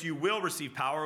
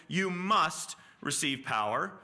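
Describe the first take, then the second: First: Said in the usual way. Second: "must" leaned on, slow and firm; slow, weighty "you must receive power"; stress on must. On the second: Shown as a demonstration. Preacher stressing "must" to the congregation. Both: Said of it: "we can replace".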